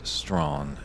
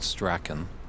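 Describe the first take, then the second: First: The name is said as one syllable, Strawn. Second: The name is said with two syllables, as spelled. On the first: The speaker calls it right. "but in fact it is Strawn" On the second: The speaker calls it wrong. "it looks like you would pronounce it Strachan, just the way it's spelled"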